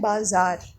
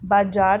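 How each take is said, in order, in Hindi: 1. बीच का व्यंजन 'z' की ध्वनि है। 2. बीच का व्यंजन 'j' की ध्वनि है। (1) "क्या बोलते हैं?" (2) "बाजार तो नहीं बोलते ना हम"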